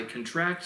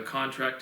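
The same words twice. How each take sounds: First: "contract" as con-TRACT; verb stress. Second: "contract" as CON-tract, stressed first; noun stress. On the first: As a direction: stress the second syllable of "contract". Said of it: "the emphasis changes the word's function". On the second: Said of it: "that's a noun". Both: Shown as a demonstration.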